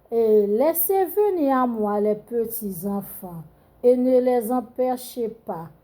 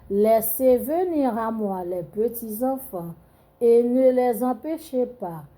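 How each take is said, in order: No difference in how they are said.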